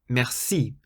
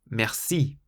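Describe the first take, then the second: First: The stress is on the second syllable. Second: The same.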